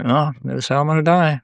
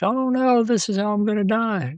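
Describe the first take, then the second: First: It is said in a calm, matter-of-fact tone. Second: It is said in a panicked, horrified tone.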